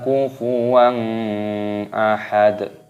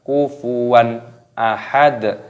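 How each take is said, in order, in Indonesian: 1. Bunyi n menyatu dengan ahad setelahnya. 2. Bunyi n dibaca jelas sebelum ahad. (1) "jangan dibaca" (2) "dibaca jelas"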